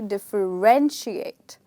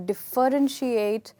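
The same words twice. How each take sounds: First: The stress is on the third syllable. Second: The stress is not on the third syllable. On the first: The speaker calls it right. "the word is actually differentiate. So the stress is on ren" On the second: The speaker calls it wrong. "Many of us call it as differentiate"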